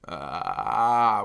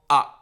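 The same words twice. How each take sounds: First: The vowel starts with a low, creaky rattle. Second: The vowel starts with a sharp catch in the throat. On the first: "And there's vocal fry, which is ah" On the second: "There's glottal"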